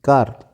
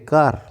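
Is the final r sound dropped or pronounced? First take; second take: pronounced; pronounced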